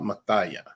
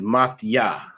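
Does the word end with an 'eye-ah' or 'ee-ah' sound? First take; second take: eye-ah; ee-ah. First: The word ends with an 'eye-ah' sound. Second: The word ends with an 'ee-ah' sound. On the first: The speaker calls it wrong. "not Mathaya" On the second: The speaker calls it right. "it is Mathia"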